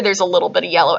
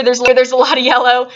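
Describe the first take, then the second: First: Dropped lower on "a little bit". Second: "lot" pressed a little louder; stress on lot. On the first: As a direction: sink the voice lower to show only a little. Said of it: "and then down here". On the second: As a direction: lean on "lot" to show how much yellow. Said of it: "So up here". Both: Shown as a demonstration.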